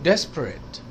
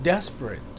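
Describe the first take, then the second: Both takes have the same delivery.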